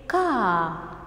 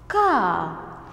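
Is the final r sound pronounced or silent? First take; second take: silent; silent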